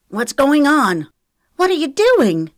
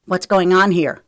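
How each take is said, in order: First: High, loud startled questioning; alarmed shock. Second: Loud, groggy demand for answers; sleepy. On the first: Girls walk in on the attack, alarmed and loud. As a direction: demand answers in shock. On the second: Trent stumbles into the room, sleepy demand. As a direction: ask it as just woken. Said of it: "sleep coating his voice". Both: A narrator's reading.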